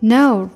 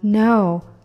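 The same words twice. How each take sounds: First: The sentence is said at a faster pace. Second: The sentence is said at a slower pace. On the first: "再加快点" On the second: "两句话连起来"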